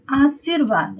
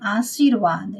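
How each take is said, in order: First: आशीर्वाद with short "i" after the "s"; wrong short I. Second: आशीर्वाद with drawn-out long "ee"; correct long II. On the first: Teacher reading out the faulty word, आशीर्वाद with short "i". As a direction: keep the middle vowel of आशीर्वाद short. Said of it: "हर्षई से है तो ये गलत है". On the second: Teacher giving the correct word, आशीर्वाद with long "ee". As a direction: stretch the "shee" of आशीर्वाद. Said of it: "ये दीर्घई में आएगा". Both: Shown as a demonstration.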